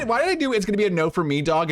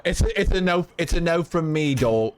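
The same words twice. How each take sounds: First: Put-on accidental British accent on "no for me". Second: Lightly attempted British accent. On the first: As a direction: slips into a quick British accent. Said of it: "in a British accent?". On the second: Streamer playfully delivering a verdict, tentative British accent. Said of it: "in a British accent".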